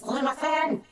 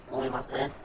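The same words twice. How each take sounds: First: "Sumimasen" called out high and loud across the store; a clerk being hailed with "Sumimasen!"; calling out sumimasen. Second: Said in the usual way. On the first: Retold or imitated. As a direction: shout "Sumimasen!" up the aisle to get attention. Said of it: "someone says". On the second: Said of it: "that's something easy".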